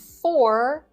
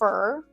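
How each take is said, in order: First: The word has its full vowel. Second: The word has a reduced, weak vowel.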